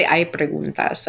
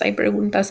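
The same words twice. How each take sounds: First: Slow and even, each word clear, "Hay preguntas"; slow teacher question. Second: "hay preguntas" repeated a bit higher, rising at the end as a question. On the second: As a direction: ask "hay preguntas" again, lifting the end. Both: Shown as a demonstration. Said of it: "She would say".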